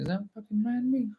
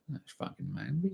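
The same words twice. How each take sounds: First: Much higher, startled disbelief; mock disbelief at the landmark; incredulous inner question. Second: Said in the usual way. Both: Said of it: "I'm thinking".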